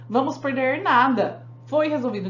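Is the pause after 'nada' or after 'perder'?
after nada. The pause comes right after the word nada. We will lose nothing because it was solved. "No segundo nós não vamos perder porque já foi resolvido"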